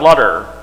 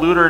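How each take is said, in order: First: The first vowel sounds like the vowel in butter. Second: The first vowel sounds like the vowel in loot. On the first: The speaker calls it wrong. "And it's not Lutter" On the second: The speaker calls it right. "So Paul and Luther together really fast is polluter"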